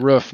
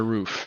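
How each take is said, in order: First: Roof with the short vowel of foot; Montana pronunciation. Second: Roof with a long oo, like goof; standard pronunciation. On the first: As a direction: say roof like hoof with foot's vowel. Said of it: "everyone make fun of me for". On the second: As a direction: say roof rhyming with proof. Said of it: "not a roof". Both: Shown as a demonstration.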